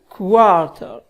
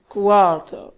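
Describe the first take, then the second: The two takes are said the same way.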